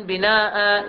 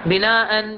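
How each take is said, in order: First: "بناء" ending on a plain "aa" with no nun; pausal alif. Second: "بناء" with the final nun, "binaa'an"; tanween form. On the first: Teacher demonstrating the stop form. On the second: Teacher giving the connected form. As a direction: end "بناء" on "-an". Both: Shown as a demonstration. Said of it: "يقرأ".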